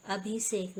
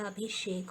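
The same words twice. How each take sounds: First: अभिषेक with plain s, abhisek; wrong pronunciation. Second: अभिषेक with sh, abhishek; a clear sh in the middle of अभिषेक; correct pronunciation. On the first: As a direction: turn the sh of अभिषेक into s. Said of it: "नहीं होता". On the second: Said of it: "होता है". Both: Shown as a demonstration.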